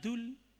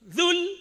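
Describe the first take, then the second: First: The word starts with a hard d sound. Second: The word starts with a buzzing z sound. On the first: The speaker calls it wrong. "jangan sampai baca dul" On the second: The speaker calls it right. "Zul, zul, zul jalali"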